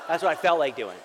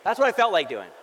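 First: Laughing confession. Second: Louder repeat. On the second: Pastor admits to congregation, louder with a laugh. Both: Real, not acted.

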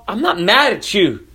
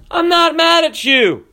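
First: Said in the usual way. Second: Much higher, louder, hitting "not" hard; raised preacher voice. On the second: Real, not acted. Pastor assuring the congregation he isn't angry, raised preacher voice. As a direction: lift the voice like preaching from the pulpit. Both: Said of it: "I have a preacher voice and I raise my voice".

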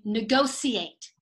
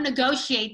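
First: "negotiate" slowly, with S in the middle; CBC negotiate. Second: "negotiate" with SH in the middle; usual SH negotiate. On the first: Retold or imitated. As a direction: say "negotiate" slowly as "ne-go-see-ate". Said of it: "they negotiate". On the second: Shown as a demonstration. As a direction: say "negotiate" as "ne-go-shee-ate". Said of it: "they don't negotiate".

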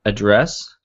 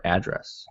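First: "address" as uh-DRESS; unstressed first vowel. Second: "address" as AD-dress; full A first. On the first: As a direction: say "address" with a weak schwa first and stress on the second syllable. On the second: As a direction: say "address" opening on a clear short A as in "add". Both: Shown as a demonstration. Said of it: "Do we pronounce it".

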